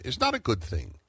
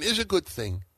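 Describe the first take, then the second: First: "not" hit hard in "is not a good thing"; stress on NOT. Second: "is" hit hard in "is a good thing"; stress on IS. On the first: Host contrasts Nazi Germany with America, stress on "not". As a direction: land firmly on "not". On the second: Host answers his own contrasting case, stress on "is". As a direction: land firmly on "is". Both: Real, not acted. Contrasting two police chase cases.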